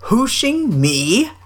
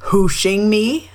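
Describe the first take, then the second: First: Slow, higher, incredulous repeat; drawn-out surprise. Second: Raised, questioning surprise on "me"; surprised. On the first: Eeyore repeats the hooshing claim, slow and higher in surprise. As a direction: stretch "Hooshing me" out, climbing in disbelief. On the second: Eeyore answers the hooshing claim, surprised question. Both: A narrator's reading. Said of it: "said Eeyore in surprise".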